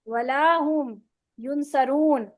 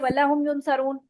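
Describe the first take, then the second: First: The vowel after wa is drawn out long. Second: The vowel after wa is cut short. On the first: They will not be helped. The speaker calls it right. "नहीं वो मदद दिए जाएंगे" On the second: They will surely be helped. The speaker calls it wrong. "जरूर बजरूर वो मदद दिए जाएंगे"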